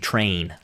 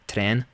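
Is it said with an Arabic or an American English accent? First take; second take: American English; Arabic. First: It is said with an American English accent. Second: It is said softly with an Arabic accent.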